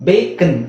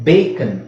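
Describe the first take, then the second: The two takes are said the same way.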